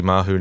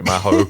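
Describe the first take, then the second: First: "Mahu" with a final oo vowel; Mahu pronunciation. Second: "Maho" with a final oh vowel, like hoe; Maho pronunciation. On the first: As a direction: say "Mahu" ending in an "oo" sound. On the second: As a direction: say "Maho" ending in an "oh" sound. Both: Real, not acted. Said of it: "forgot you pronounce it Mahu".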